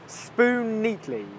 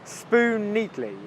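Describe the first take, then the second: First: The two words are joined, sharing one N sound. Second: The two words are joined, sharing one N sound.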